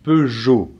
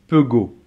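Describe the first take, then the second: First: The g is pronounced like a zh sound. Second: The g is pronounced as a hard g. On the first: The speaker calls it right. "le G va se prononcer comme un J" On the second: The speaker calls it wrong. "s'il n'y avait pas de E, ça ferait pego"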